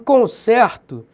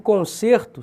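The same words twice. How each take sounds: First: The stressed E is an open vowel. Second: The stressed E is a closed vowel. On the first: It is a verb. "tem um som agudo" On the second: It is a noun. "esse E tem um som fechado, grave"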